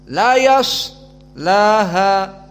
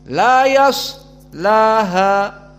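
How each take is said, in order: No difference in how they are said.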